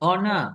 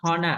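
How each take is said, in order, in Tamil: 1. இந்தச் சொல் உயிரெழுத்தில் தொடங்குகிறது, h இல்லை. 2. இந்தச் சொல் h ஒலியுடன் தொடங்குகிறது. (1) "அப்ப ஹெச் வந்துட்டு சைலண்ட்" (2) "not honor"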